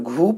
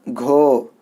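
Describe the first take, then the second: First: The vowel is a long 'oo' sound. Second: The vowel is a long 'o' sound. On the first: The speaker calls it wrong. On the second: The speaker calls it right.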